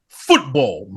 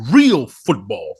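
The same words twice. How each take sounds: First: Said in the usual way. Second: "real" stretched slow and loud; stress on real. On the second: Shown as a demonstration. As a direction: lean slowly on "real".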